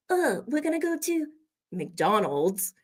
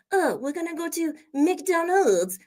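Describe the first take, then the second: First: High mock French accent, dropping into American for MCDONALD'S; French accent, switching. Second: Put-on higher-pitched French-accented English; mock French accent. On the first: French speaker stopping to say it our way, French accent turning American. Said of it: "stop and say". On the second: French person heading to McDonald's, in a mock French accent. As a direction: imitate a French speaker, MCDONALD'S included. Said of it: "we don't expect you to say McDonald's".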